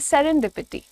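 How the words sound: A slight break separates seren and dipity. The speaker calls it right. "सेरेन अलग, DPT अलग. सो so, थोड़ा सा break"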